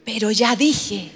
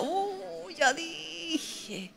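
First: Slow, low "ya dije"; resigned commitment. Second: Very soft, drawn-out regret; a tiny, higher-pitched lament to oneself; mock rueful moan. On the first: Acted. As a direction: play reluctant resolve, slow and lowered. Pedro resignado a cumplir. (resignación fingida, lenta y grave) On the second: Lamenta lo que dijo. (lamento bajito y arrepentido)

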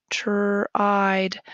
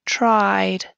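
First: Whisper. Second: Said in the usual way. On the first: Shown as a demonstration. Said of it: "whispered repeat of word". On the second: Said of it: "phonics word read aloud".

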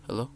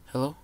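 The two takes are said the same way.

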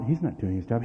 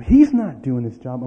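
First: Said in the usual way. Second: Louder and slower, each word pressed; loud slow exasperated repeat; exasperated emphasis. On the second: Retold or imitated. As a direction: drag it out in frustration.

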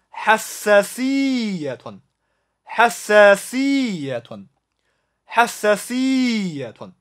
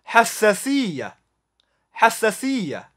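First: حساسية slowly, holding both doubled sounds, ending "-tun"; doubled consonants. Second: حساسية ending in "-ya", no "-tun"; colloquial short ending. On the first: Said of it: "注意叠音". (叠音读法：حساسية 慢读两个叠音，词尾读“-tun”) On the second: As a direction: keep the double sounds in حساسية, drop the case ending. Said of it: "口语". (口语读法：حساسية 词尾只读“-ya”) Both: Shown as a demonstration.

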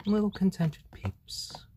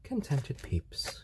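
First: Soothing whisper. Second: Soft soothing voice. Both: Real, not acted. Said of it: "calm and soothing".

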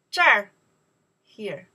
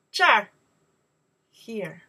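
The two takes are said the same way.

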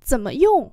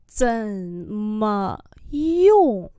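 First: Said in the usual way. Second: Slow, drawn-out syllables; slow demonstration. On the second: Shown as a demonstration. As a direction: model it slowly for learners. Teacher repeats phrase slowly.

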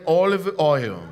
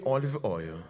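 First: OLIVE OIL said again, fuller and louder; louder repeat. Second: Said low and soft, OLIVE OIL just murmured; soft call-and-response. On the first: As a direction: push it out for the church to echo. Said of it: "Say again". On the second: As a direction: model it gently for the congregation. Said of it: "Everyone say with me". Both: Shown as a demonstration.

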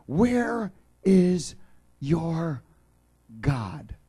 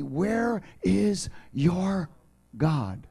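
First: "Where" thrown out louder and higher, then "your God" falls back; mocking enemies' taunt. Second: Slow, drawn-out taunting question, voice pitched up; mocking enemies. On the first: Preacher repeats the enemies' taunt to the congregation, louder. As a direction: call out the taunt, hitting "Where" hard. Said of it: "everybody here has gone through it". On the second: Preacher voicing the enemies' taunt, slow and mocking. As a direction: taunt it slowly like a scornful enemy. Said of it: "they continue to say to me".

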